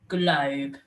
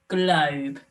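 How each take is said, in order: No difference in how they are said.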